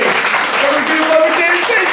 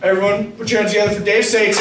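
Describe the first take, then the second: First: High, loud, fast announcer call; loud hype intro. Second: Said in the usual way. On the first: Real, not acted. Comic hyping the crowd for the host, loud announcer call. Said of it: "remember to keep your fucking bartender". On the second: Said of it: "I'm gonna bring your host up".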